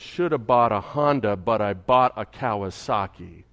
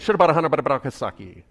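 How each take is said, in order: First: It is said slowly and clearly. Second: It is said fast and slurred together.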